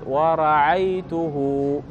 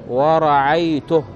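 First: The final h is followed by a vowel. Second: The final h is bare, with no vowel. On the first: The word runs on into what follows. "اذا كان في الوصل ستقول ورعيته" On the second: The word ends the utterance. "هذا بالوقف"

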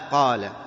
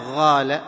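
First: The first consonant is a deep q. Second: The first consonant sounds like a gh. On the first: The speaker calls it right. "عندما تقول ماذا قال" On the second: The speaker calls it wrong. "فيكون شبيه بالغين"

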